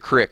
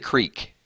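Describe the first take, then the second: First: The vowel is a short 'ih' sound. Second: The vowel is a long 'ee' sound. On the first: The speaker calls it wrong. "the really really bad ones like y'all go down to the crick" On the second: The speaker calls it right. "I say creek"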